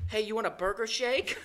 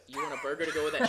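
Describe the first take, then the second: First: Mock flirty line, slower and pitched up; botched pickup line. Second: Said in the usual way. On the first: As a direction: garble the line like a nervous flirt. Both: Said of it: "he said".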